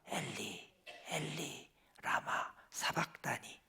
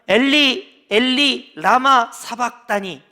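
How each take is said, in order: First: It is said faintly, like a dying breath. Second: It is shouted out loudly. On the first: "정말로 돌아가시기 직전이니까" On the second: "이렇게 외치셨을까"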